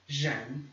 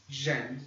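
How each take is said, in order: First: The first sound is like a Portuguese J. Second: The same.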